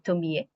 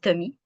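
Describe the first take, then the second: First: Each final vowel is pronounced separately. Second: The final vowels merge into one sound. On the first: "en japonais, on dit Tomie parce qu'on prononce toutes les voyelles" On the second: "En français, on dit Tommy"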